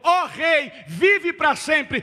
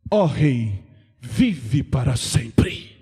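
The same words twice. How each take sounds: First: "Ó rei, vive para sempre" repeated loud, with "vive" drawn out; preacher stresses "vive" so the crowd gets it; repeated for emphasis. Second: Much lower, slow, reverent address to the king; bow and greet the king, deep and slow; Daniel hailing King Dario, low and grave; Daniel's solemn greeting. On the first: Shown as a demonstration. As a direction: drive home the greeting, slowly. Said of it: "tu ainda não pegou". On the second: Acted. Você sabe o que que Daniel falou?.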